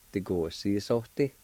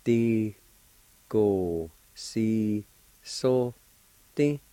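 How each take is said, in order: First: "Ti, go, si, so, ti" run together as one word; whole-word pronunciation. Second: TI, GO, SI, SO, TI with a pause after each; syllable-by-syllable pronunciation. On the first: Teacher giving the finished word for explain, said connected. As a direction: join "Ti, go, si, so, ti" without gaps. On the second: Teacher demonstrating the word for explain, syllable by syllable. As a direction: sound out "Ti, go, si, so, ti" one by one. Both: Shown as a demonstration. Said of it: "it's pronounced like this".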